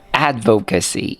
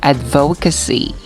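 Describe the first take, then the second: First: The stress is not on the second syllable. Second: The stress is on the second syllable. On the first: The speaker calls it right. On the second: The speaker calls it wrong.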